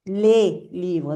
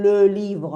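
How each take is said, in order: First: "Le" said as "lé", lips spread; smiled plural LE. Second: "Le" with a rounded vowel, pushed louder; closed singular LE. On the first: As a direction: smile through "Le" as "lé" before "livre". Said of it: "hacemos sonrisa". («Le» como «lé», con sonrisa) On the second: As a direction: purse "Le" like a little fish before "livre". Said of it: "la boca como un pececito". («Le» cerrado, con boca de pececito) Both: Shown as a demonstration.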